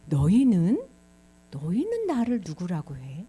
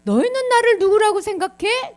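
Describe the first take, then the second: First: Lower, measured question; Jesus questioning disciples. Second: High, loud, pointed question; emphatic questioning. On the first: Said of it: "제자들에게 얘기한 거야". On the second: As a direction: put the question forcefully to the whole group. Jesus puts question to disciples forcefully. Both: Acted.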